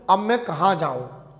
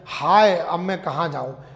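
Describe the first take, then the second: First: It is said in a plain, neutral tone. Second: It is said in a grieving, sorrowful tone.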